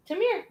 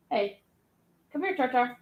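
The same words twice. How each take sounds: First: High sing-song call to a dog. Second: Calling the dog. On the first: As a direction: coax the dog over in a high voice. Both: Real, not acted. Calling her dog over.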